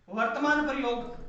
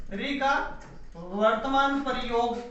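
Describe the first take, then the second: First: Said in the usual way. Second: Slow, even dictation pace for notes; धीमे, लिखवाने वाले अंदाज़ में. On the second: Shown as a demonstration. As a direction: spell out री का वर्तमान प्रयोग slowly so students can write it.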